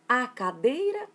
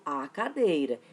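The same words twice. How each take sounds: First: Stretched article A, then questioning lift on cadeira. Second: A stressed, cadeira falling lower to a close; settled answer. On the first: Student asking themself which article fits, questioning. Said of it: "se pergunta". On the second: Student answering own question about the article, settled answer. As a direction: answer firmly "a cadeira", voice dropping at the end. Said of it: "Mas eu falo a cadeira ou o cadeira?". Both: Acted.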